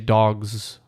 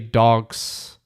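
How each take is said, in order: First: The word ends with a buzzing z sound. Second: The word ends with a hissing s sound. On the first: The speaker calls it right. "we say dogs with more of a Z sound" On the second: The speaker calls it wrong. "We don't say dogs"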